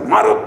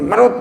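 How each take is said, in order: First: It is said slowly, as two words. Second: It is said quickly, run together.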